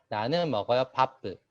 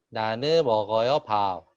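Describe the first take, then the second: First: An extra vowel follows the final p. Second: The final p is left out entirely. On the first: "일본 학생들은 나는 먹어요 바쁘 이런 식으로 하는" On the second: "비읍을 정확하게 발음 안 하기도 해요"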